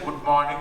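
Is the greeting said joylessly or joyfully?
joyfully. It is said warmly, full of joy.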